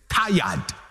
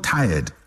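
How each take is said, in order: First: It is said in a drawn-out Nigerian accent. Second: It is said in a flat Ghanaian accent. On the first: The speaker calls it right. "The Nigerians will say tired" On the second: The speaker calls it wrong. "We Ghanaians don't know how to say words well"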